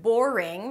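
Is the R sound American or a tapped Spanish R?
American. The R is a held American R, tongue untouched. "the word boring"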